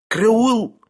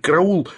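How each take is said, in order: First: High, sudden squeal of alarm; frightened squeal. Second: Short, high, mildly strangled cry; attempted cry. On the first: Sharikov grabbed by the throat, frightened squeal. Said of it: "пискнул Шариков бледнее". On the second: Sharikov tries shouting for help, stifled cry. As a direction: try to cry out and fail. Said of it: "попытался крикнуть". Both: A narrator's reading.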